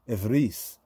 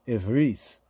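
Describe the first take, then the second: No difference in how they are said.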